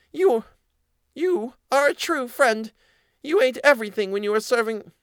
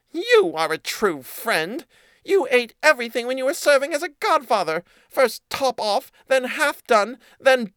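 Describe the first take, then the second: First: Squeaky mouse dragging out the accusation; accusing mouse voice. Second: Squeaky mouse listing the cat's lies; accusing mouse voice. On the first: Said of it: "said the mouse". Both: A narrator's reading.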